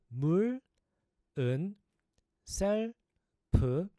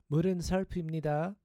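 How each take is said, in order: First: It is said slowly, syllable by syllable. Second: It is said at a faster pace.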